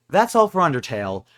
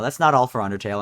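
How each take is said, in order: First: Said in the usual way. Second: "not" punched in correction; stress on NOT. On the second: Real, not acted. Gamer corrects himself, stressing not. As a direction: hit "not" to take back the sign-off. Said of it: "wait, no".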